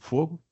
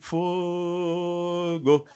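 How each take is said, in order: First: The word is said in a calm, casual way. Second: The word is shouted as an excited cheer. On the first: It is a request for a light. "Se eu fumo e peço a alguém um cigarro, eu digo" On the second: It cheers on a football team. "Mas se você é botafoguense, está lá no Maracanã"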